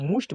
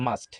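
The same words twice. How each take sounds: First: মুস্ট with an "oo" vowel; common mispronunciation. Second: মাস্ট with an open "aa" vowel; correct pronunciation. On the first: Teacher quoting what many students say, mispronounced with "oo". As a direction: say মুস্ট as "moosht". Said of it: "এটা অনেকেই আমরা মুস্ট বলে থাকি". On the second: Teacher correcting students' mistake, correctly pronounced with "aa". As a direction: say মাস্ট as "maast", no "oo". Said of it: "এটা হবে". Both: Shown as a demonstration.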